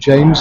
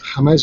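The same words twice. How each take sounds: First: The name is said with an English pronunciation. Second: The name is said with a non-English pronunciation. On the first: This is how people in Britain say the name. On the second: This is the player's own form of the name.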